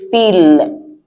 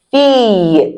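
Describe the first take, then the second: First: "fille" as fill, with an audible L; pronounced L. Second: "Fille" as fee, long ee, L silent. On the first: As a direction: end "fille" on a sounded L, the mistake. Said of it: "I didn't say fille". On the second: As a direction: hold the vowel of "Fille" and leave off the L. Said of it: "Because the L is not pronounced". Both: Shown as a demonstration.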